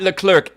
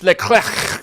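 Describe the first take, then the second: First: The name is said in an English way. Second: The name is said in a French way. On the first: The speaker calls it wrong. "it's not Leclerc" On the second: The speaker calls it right. "it's Leclerc"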